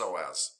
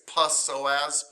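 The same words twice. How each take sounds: First: The word begins with an S sound. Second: The word begins with a P sound. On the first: The speaker calls it right. "but it's just pronounced psoas" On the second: The speaker calls it wrong. "I know it looks like it's psoas"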